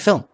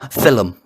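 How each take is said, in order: First: It is said in a plain standard accent. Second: It is said in a Northern Irish accent.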